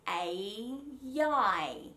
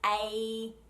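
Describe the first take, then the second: First: The vowels are joined by a gliding Y sound. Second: The vowels are separated by a complete stop. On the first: The speaker calls it right. "we will put a connecting Y in between" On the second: The speaker calls it wrong. "if I do it slowly, ... I really have to stop the sound completely"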